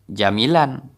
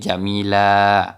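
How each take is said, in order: First: The word ends with an n sound. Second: The word ends with a lengthened vowel. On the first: The speaker calls it wrong. "bukan jamilan" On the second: The speaker calls it right. "tetapi jamila"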